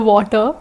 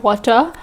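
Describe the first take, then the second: First: Water said with a v-like w, "vwater"; Indian-accented water. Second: Said in the usual way. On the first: Shown as a demonstration. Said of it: "forgive me when I just say water". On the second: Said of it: "instead of water".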